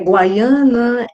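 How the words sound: The name is said with Spanish pronunciation. "em espanhol"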